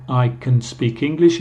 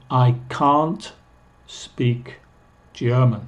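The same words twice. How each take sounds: First: "can" unstressed before "speak"; weak, short "can"; very reduced can. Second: "can't" stressed with long ah, kahnt; slow, separated words, weight on "can't"; negative can't. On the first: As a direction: pass lightly over "can". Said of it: "es muy reducido". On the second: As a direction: lean on the ah in "can't". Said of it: "escucha el negativo". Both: Shown as a demonstration.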